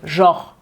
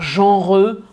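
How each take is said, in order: First: The word is clipped short with no final vowel. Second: The word ends with a full extra vowel. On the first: The speaker calls it right. "on va le prononcer rapidement" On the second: The speaker calls it wrong. "on va pas dire genreux"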